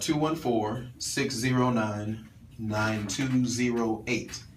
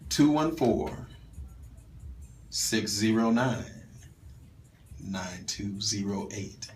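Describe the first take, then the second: First: The number is said at normal speed. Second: The number is said slowly and carefully.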